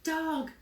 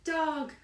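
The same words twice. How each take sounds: No difference in how they are said.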